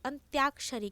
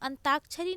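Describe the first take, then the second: First: The word is said as 'antyakshari' with a glide. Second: The word is said as 'antakshari' without a glide. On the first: The speaker calls it right. "अपितु अंत्याक्षरी" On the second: The speaker calls it wrong. "अंताक्षरी नहीं होता"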